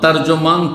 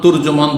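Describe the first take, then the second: First: The first syllable has the vowel 'a'. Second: The first syllable has the vowel 'u'. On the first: "আমরা তরজমান বলি" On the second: "আরবিতে তুরজমানটা বেশি শুদ্ধ"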